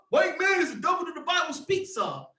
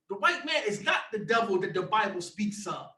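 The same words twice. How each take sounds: First: Mock preacher's shout of the false claim. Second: Lands hard on "not" and falls at the end; stress on not. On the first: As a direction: bellow their slogan back at them. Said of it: "let me calm down". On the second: Real, not acted. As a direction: correct the claim by punching "not".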